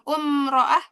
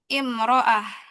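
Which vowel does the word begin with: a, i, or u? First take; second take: u; i. First: The word begins with a u vowel. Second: The word begins with an i vowel. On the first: The speaker calls it wrong. "bukan umro'ah" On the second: The speaker calls it right. "tapi imro'ah"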